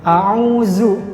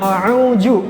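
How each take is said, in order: First: The middle consonant is a plain z. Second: The middle consonant is a j. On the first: "diganti huruf za biasanya" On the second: "Biasanya jim"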